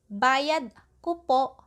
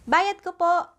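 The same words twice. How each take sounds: First: It is said slowly and carefully. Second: It is said at a normal speaking speed.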